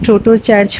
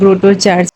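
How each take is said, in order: First: The name begins with a plain 't' sound. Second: The name begins with a 'gr' sound. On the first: The speaker calls it wrong. "এই চার্চের নাম কিন্তু টোটো church হবে না" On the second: The speaker calls it right. "এর নাম হচ্ছে গ্রোটো church"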